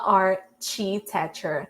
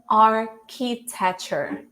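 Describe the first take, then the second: First: The 'ch' is said as a ch sound. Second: The 'ch' is said as a k sound. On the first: The speaker calls it wrong. "not architecture. Don't let yourself fall by the C H" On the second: The speaker calls it right. "so architecture"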